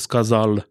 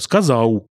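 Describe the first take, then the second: First: The word ends in an L sound. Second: The word ends in a W-like glide. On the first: This is the standard form. "вместо «сказал»" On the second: This is the dialect form. "«сказау» вместо «сказал»"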